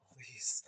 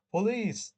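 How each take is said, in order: First: Hushed unvoiced whisper of a warning. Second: Loud exclamation. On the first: Shown as a demonstration. Cab driver warning his passenger, whispered. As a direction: breathe it out, no voice. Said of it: "should have been ... whispered". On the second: Acted. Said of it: "whispered again in a thick accent".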